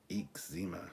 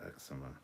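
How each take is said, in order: First: "eczema" as "eek-ZEE-ma"; local pronunciation. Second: "eczema" as "EK-suh-muh"; standard pronunciation. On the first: Streamer shows how locals say it, local pronunciation. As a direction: stress the second syllable of "eczema", long ee sounds. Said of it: "Where I live, we say". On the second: Streamer shows the version locals don't use, standard pronunciation. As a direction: stress the first syllable of "eczema", short e. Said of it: "not eczema". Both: Shown as a demonstration.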